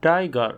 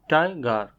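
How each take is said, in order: First: Said in the usual way. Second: "tiger" in two beats, ti, ger; split into syllables. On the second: Shown as a demonstration. Teacher showing learners the two syllables, "tiger" split in two. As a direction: say "tiger" with a small break after ti. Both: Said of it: "each of these words has two syllables".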